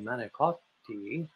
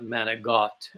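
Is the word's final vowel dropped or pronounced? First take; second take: pronounced; dropped. First: The final vowel is fully pronounced, standard Italian style. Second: The final vowel is dropped, Brooklyn Italian style. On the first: This is how the speaker said it. "I would say manicotti" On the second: This is how Brooklyn Italian Americans said it. "They would be saying manigot"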